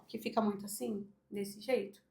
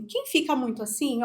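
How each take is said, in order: First: Much softer and lower, slumped posture; demonstrating a small, sunken voice; hunched, lowered voice. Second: Said in the usual way. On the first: Shown as a demonstration. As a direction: let the voice sink into a hunched chest. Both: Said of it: "a voz sai mais baixa".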